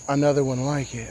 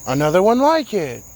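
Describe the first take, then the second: First: The phrase is said plainly, without emphasis. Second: The phrase is said with strong emphasis. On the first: The speaker calls it wrong. "it's not pronounced" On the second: The speaker calls it right. "With the emphasis"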